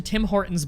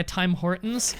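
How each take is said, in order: First: Said in the usual way. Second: Tim Hortons said as "Time Hortons", the "Tim" stretched into "Time"; misspelled name. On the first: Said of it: "they corrected it later to Tim Hortons". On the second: Shown as a demonstration. Streamer showing the article's wrong spelling, "Time Hortons". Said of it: "I think they spelled it like that".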